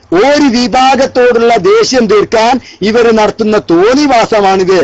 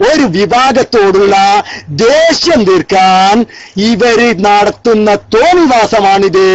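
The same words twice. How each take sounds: First: Said in the usual way. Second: ദേഷ്യം drawn out, every word weighed very slowly; slow indignant emphasis; slow, deliberate accusation. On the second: Shown as a demonstration. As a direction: spell out the charge word by word. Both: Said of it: "കണ്ടില്ലേ?".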